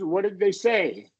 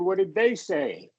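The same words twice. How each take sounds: First: The word 'they' carries no special emphasis. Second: The word 'they' carries strong emphasis.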